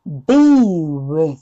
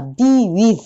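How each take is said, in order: First: "with" dropped low into the throat, slow; throaty be with. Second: "with" said from the front of the mouth; a thin front "with"; wrong be with. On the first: Teacher showing the correct be with. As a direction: pull "with" back into the throat. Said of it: "喉落としですよ". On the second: Teacher demonstrating the wrong be with. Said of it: "違ってるのは". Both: Shown as a demonstration.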